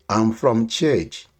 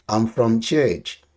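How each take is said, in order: Both takes have the same delivery.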